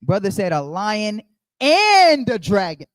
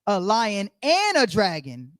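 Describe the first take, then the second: First: Slow, leaning hard on "and" in "a lion and a dragon"; stress on and. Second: Slow, "and" drawn out in "A lion and a dragon"; stress on and. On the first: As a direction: hit "and", slowly and louder. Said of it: "we gotta put some emphasis on that". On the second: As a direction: lean on "and", slowly. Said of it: "not a lion or a dragon". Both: Shown as a demonstration.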